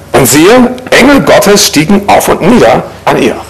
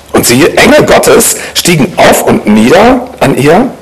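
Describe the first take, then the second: No difference in how they are said.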